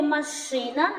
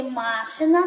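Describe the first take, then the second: First: "машина" as ма-ШИ-на; stress on second syllable. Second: "машина" as МА-шина; stress on first syllable. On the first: Teacher compares the syllable schemes, stressed "маШИна". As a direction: hit the middle syllable of "машина". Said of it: "наголос падає на другий склад". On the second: Teacher compares the syllable schemes, stressed "МАшина". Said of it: "наголос падає на перший склад". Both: Shown as a demonstration.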